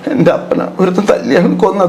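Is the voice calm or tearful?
tearful. It is said in a weeping, tearful voice. The actor weeps instead of making the audience weep. The speaker calls it wrong. "എന്ന് പറഞ്ഞില്ലല്ലോ"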